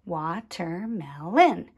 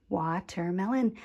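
First: "Watermelon" in four separated beats; syllable by syllable. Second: Said in the usual way. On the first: Shown as a demonstration. Teacher recapping the crayons, "Watermelon" split into syllables. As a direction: say "Watermelon" as wa, ter, mel, on. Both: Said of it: "tap out the different sound groups".

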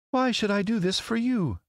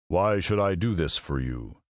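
First: Very high lady's voice. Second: A touch of imposing wizard, slow; slow, weighty question from the wizard; Oz the great head. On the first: Lovely lady answering a scarecrow's plea, regal. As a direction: regal question, pitched far up. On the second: Great head answering a girl's plea, slow and imposing. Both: A narrator's reading.

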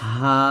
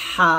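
First: Light, open হা from the bottom of the throat; thin glottal H. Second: Long হা squeezed from mid-throat; pressed throat H. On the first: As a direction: let হা out thinly, no squeeze. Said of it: "কণ্ঠনালীর শুরু থেকে পাতলা করে". (কণ্ঠনালীর শুরু থেকে পাতলা হা) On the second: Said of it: "কণ্ঠনালীর মাঝখান থেকে চাপ দিয়ে". (কণ্ঠনালীর মাঝখান থেকে চাপ দিয়ে হা) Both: Shown as a demonstration.

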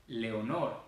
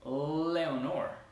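First: "Leonor" with a light, quick tongue-tap L; short Spanish L in "Leonor". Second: "Leonor" with a long, vibrating L; English-style "Leonor", opening L held long. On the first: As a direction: say "Leonor" the Spanish way, L barely touched. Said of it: "la L en español es súper rápida". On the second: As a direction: lean on the L of "Leonor" like a gringo. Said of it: "sino son largas". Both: Shown as a demonstration.

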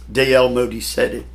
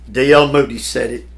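Both takes have the same delivery.

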